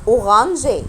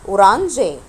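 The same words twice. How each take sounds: The two takes are said the same way.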